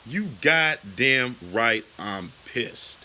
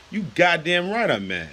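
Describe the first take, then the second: First: Slow, deliberate angry emphasis. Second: Higher, forceful angry retort; angry outburst. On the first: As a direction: drag each word out, seething. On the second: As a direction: snap back, truly mad. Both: Real, not acted. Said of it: "I am freaking pissed".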